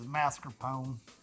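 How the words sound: The word is said with a Texan accent. "if we're in Texas"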